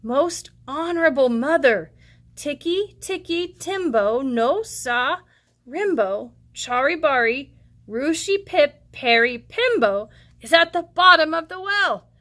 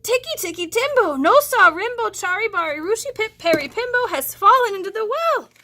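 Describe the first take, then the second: First: Put-on slow, careful little boy's voice; deliberate, unhurried child; very slowly. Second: Put-on high, loud out-of-breath boy rattling off the name; breathless child gasping the long name; panting boy. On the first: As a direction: spell out each piece of the name slowly. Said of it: "very slowly said". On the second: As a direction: race through the name out of breath. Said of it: "he panted".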